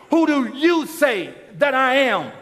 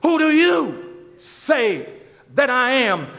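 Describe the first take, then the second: First: Called out to the whole congregation; booming question to everyone; preached to the crowd. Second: Slow, pointed question to one person; to each one. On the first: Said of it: "Just like I'm speaking to you". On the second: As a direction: lean in and ask each listener, slowly. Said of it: "But I'm also speaking individually". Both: Shown as a demonstration.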